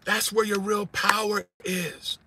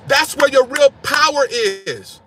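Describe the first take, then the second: First: Slow and much softer, "where" hushed; soft repeat. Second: Slow and emphatic, driving home "where"; preached out, slow, louder. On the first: Preacher repeating the point to the congregation, hushed and slow. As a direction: drop "That's where your real power is" to a near hush. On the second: Preacher urging the congregation, slow loud emphasis. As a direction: preach "That's where your real power is" slow and loud. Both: Real, not acted.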